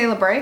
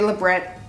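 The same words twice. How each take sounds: First: The word is said in a fancier-sounding way. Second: The word is said in a plainer, ordinary way. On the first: This is the pronunciation the speaker usually uses. "I always say Labret because it makes me feel fancier" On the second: This is an equally acceptable alternative pronunciation. "but it could be Labret"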